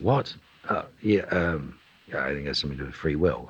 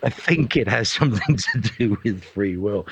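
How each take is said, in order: First: Startled "what", then low mumbled quick answer; distracted offhand. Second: Mock-grand, measured pronouncement; grand God's answer. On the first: Busy actor caught by a question mid-task, distracted and offhand. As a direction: answer absently, rushing the line away. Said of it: "in the middle of doing something". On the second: God answering the big question, mock-grand and deliberate. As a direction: deliver it as a weighty divine answer, lightly hammed. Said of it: "It's sort of like a great".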